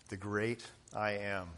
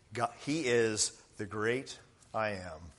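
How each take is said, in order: First: "great" repeated much softer; soft echo. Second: Said in the usual way. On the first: Shown as a demonstration. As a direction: let "The great I am" fall away softly, in awe.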